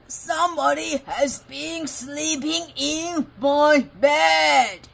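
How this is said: It is growled in a great big voice.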